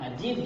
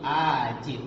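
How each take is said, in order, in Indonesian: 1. Vokalnya dibaca pendek. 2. Vokalnya dibaca panjang.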